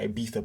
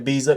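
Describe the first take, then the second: First: It is said with a European, Spanish-style pronunciation. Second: It is said with an American pronunciation. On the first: "in Europe say Ibiza because that's how they pronounce it in Spain" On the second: "Americans say Ibiza"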